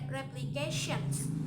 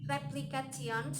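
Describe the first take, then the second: First: The consonant before -ion is an sh sound. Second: The consonant before -ion is a plain t. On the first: The speaker calls it right. "T becomes sh" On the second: The speaker calls it wrong. "we cannot say replications"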